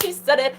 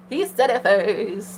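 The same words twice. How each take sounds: First: Said in the usual way. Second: Drawn-out, savoring each word; slow emphasis. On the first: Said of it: "repeats for emphasis". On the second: Real, not acted. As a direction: stretch it to savor the moment. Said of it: "repeats slowly".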